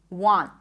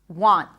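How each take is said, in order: No difference in how they are said.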